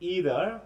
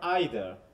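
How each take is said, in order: First: The word begins with an 'ee' vowel. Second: The word begins with an 'eye' vowel. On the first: "তাহলে আই আর ই" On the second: "both আর okay"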